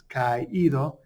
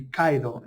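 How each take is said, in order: First: "caído" slowly as ka-EE-do, three syllables; caído with separated vowels. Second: "caído" with a-i run together as KAI-do; caído as two syllables with diphthong. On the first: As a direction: split the vowels in "caído" and stress the í. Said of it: "that accent separates the two vowels". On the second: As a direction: say "caído" wrongly, first two vowels as one syllable, like "KAI-do". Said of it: "if you don't have that accent". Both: Shown as a demonstration.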